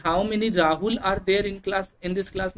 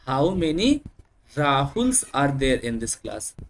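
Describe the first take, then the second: First: How many Rahul are there, spoken very slowly and deliberately; slow classroom example. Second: Rahuls drawn out very slowly; slow demonstration. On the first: Teacher asking a class with several Rahuls, slow and deliberate. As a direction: spell out the sentence word by word for the class. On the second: Teacher showing pupils the plural Rahuls, slow and drawn out. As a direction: linger on Rahuls to show the plural. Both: Shown as a demonstration. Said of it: "नहीं बोलेंगे".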